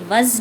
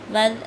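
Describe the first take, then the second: First: The consonant is a buzzing z sound. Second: The consonant is a soft th sound. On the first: The speaker calls it wrong. "ये वज़ नहीं है" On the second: The speaker calls it right. "दोनों दांतों के दरमियान आवाज़ को ज़ुबान को लेके आएंगे, नरमी से"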